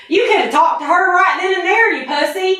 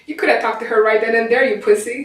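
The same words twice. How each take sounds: First: Redneck Southern accent. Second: Put-on Southern accent. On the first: Shown as a demonstration. Guy showing the friend how a redneck says it, Southern accent. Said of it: "So it'd be something like". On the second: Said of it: "I gotta do a Southern accent".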